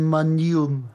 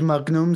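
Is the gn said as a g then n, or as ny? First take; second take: ny; g then n. First: The gn sounds like a single ny sound. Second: The gn sounds like a hard g then n. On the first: The speaker calls it right. "sondern Magnum" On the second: The speaker calls it wrong. "bei Magnum sagen sie auch nicht Magnum"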